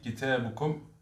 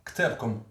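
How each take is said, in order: First: كتابكم said kitābukum, vowels after k and b; full classical form kitābukum, every vowel said; كتابكم with the u before kum; classical Arabic. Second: كتابكم said ktabkom, the first vowels dropped; clipped Moroccan form ktabkom; كتابكم with k and t run together; Moroccan Arabic. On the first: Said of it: "Donc ça, c'est l'arabe classique". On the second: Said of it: "Mais en arabe marocain, on va dire". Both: Shown as a demonstration.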